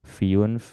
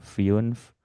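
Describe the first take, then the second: First: The vowel glides from an i sound into u. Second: The vowel glides from an i sound into u.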